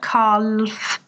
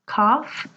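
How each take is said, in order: First: The L is pronounced in the word. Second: The L is not pronounced in the word. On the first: The speaker calls it wrong. "It's not calf" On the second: The speaker calls it right. "calf has a silent L"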